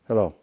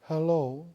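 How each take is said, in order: First: It sounds antagonistic and confrontational. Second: It sounds grieving and sorrowful.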